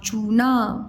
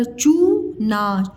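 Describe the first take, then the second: First: Said in the usual way. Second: चूना split slowly, long rising चू; syllable by syllable. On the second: Shown as a demonstration. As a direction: sound out चूना as चू, pause, ना. (चूना को अलग-अलग तोड़कर, धीरे) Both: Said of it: "मैं अलग-अलग बताया करूँ".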